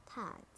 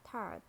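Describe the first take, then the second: First: "tart" with a British silent R; British "tart", open ah straight into t; British accent. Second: "Tart" with a sounded American R; American "Tart", curl the R before t; American accent. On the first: Teacher models tart for learners, British accent. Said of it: "in British English". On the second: Teacher models tart for learners, American accent. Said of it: "R in American English". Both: Shown as a demonstration.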